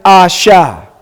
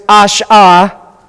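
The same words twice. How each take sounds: First: "asha" as ah-sha, sh starting the second syllable; slow demo of "asha" broken before the sh; correct syllable break. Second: "ash-ah" with sh closing the first syllable; slow demo of "ash-ah", second syllable a bare ah; wrong syllable break. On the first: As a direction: slowly sound out "asha", open first syllable. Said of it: "you would pronounce it". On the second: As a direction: break it after the sh, "ash-ah", slowly. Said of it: "you wouldn't pronounce this". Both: Shown as a demonstration.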